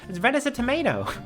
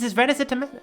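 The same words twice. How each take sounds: First: Tomato is said with an American pronunciation. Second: Tomato is said with a British pronunciation. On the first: The speaker calls it right. "she needs to say it like an American" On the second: The speaker calls it wrong. "I was about to say it as tomato"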